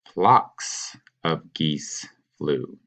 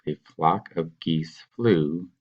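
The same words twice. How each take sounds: First: Very slow, each word laid out; teacher modeling "Flocks" slowly and carefully; slow model answer. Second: Slow classroom read of "A flock of geese flew"; slow reading aloud. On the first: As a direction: spell the corrected sentence out slowly for students. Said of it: "You're gonna say". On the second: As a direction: read out slowly, word by word. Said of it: "So this sentence says". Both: Shown as a demonstration.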